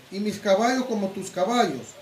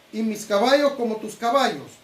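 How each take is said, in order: Both takes have the same delivery.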